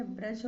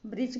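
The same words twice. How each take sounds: First: ब्रज with short A; correct A vowel. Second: ब्रिज with short I; wrong I vowel. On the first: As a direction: say ब्रज as "braj". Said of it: "होगा". (ब्रज में "अ" की ध्वनि) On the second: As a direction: say ब्रिज as "brij". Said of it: "गलत है". (ब्रिज में "इ" की ध्वनि) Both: Shown as a demonstration.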